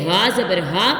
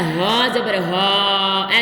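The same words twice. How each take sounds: First: The final vowel is kept short and quick. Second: The final vowel is stretched out long. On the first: The speaker calls it right. "बल्कि" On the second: The speaker calls it wrong. "इस तरह नहीं करेंगे ... ऐसे नहीं करेंगे"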